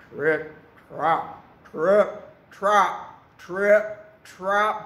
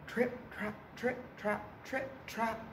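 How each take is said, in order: First: Loud, weighty, spaced-out trip-trap; heavy hoofsteps. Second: Soft, higher rhythmic trip-trap; light hoofsteps. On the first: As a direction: land each word like a big goat's hoof. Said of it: "He is very big and very heavy". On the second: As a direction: tap out the goat's light steps softly. Middle goat trots off. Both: A narrator's reading.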